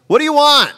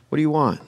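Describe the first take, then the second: First: Very high, exasperated demand; hammed-up irritation, pitched way up; annoyed. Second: Soft, polite question; not rude. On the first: Jesus turning on his followers, mock annoyed. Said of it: "ask that question without being annoyed". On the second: Acted. Jesus to men following him, gently asking. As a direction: ask it gently, without the edge. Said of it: "I don't think he was being rude".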